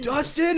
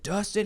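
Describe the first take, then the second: First: Very high, rising disbelief; mock astonishment. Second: Higher, rising question at usual volume; milder mock surprise. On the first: [name] hearing who it is, mock astonished. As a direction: echo the name high, as a stunned question. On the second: [name] checking the name, mildly surprised. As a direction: echo the name in mild disbelief.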